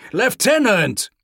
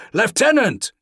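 First: Loud desperate call; shouting. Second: Loud call across a hall; shouting. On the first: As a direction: shout it again, more urgent. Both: A narrator's reading. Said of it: "shouted Pavel from across the hall".

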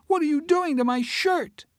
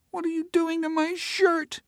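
First: Put-on high child voice, louder and insisting; a little girl pressing her question; insistent child. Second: Put-on small high whimpering child voice; a little girl upset over her shirt. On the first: Emma repeats it louder to Teresa, insistent. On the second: Emma whimpers at Teresa over her shirt. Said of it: "Emma whimpered".

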